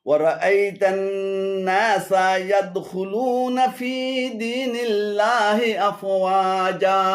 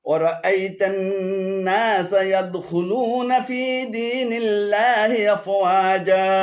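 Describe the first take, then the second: Both takes have the same delivery.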